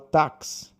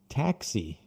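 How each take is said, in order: First: The word ends on a consonant, without final vowel. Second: The word ends with a clear final vowel sound. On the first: The speaker calls it wrong. "A maioria fala tax, tax, que é imposto" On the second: The speaker calls it right. "Taxi, right?"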